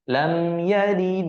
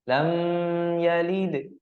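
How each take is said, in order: First: The word lam is short and clear. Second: The word lam is drawn out and nasal. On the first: The speaker calls it right. "Maka mesti kita baca jelas atau pendek" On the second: The speaker calls it wrong. "tidak boleh atau lam. Nah, lam itu kan udah panjang, dengung pula"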